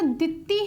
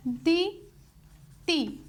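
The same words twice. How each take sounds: First: Said in the usual way. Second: ਦੀ, pause, ਤੀ, as two separate syllables. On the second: Shown as a demonstration. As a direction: break the word into ਦੀ and ਤੀ. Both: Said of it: "ਇੱਕ syllable ਇਹ ਆ ਗਿਆ".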